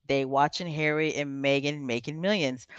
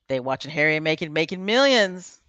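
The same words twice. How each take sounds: First: It is read slowly. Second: It is read fast.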